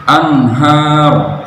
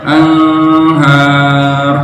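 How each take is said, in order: First: Slow anhar, n sounded clearly; izhar, clear n. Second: Slow anhar, n hidden nasal; ikhfa, blurred n. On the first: (anhar dengan izhar jelas) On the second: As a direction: blur the n in anhar. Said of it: "dibaca samar". (anhar dibaca samar) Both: Shown as a demonstration.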